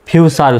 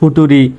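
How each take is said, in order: First: The middle consonant is a ch sound. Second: The middle consonant is a plain t sound. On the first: The speaker calls it right. "ফিউচার উচ্চারণ হবে" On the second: The speaker calls it wrong. "অনেকে এটাকে কিন্তু এভাবে উচ্চারণ করতে পারে"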